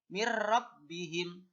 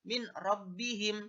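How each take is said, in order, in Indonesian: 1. Bunyi n menyatu menjadi r yang dobel. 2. Bunyi n jelas tetap terdengar sebelum r.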